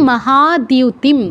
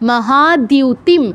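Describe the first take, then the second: The two takes are said the same way.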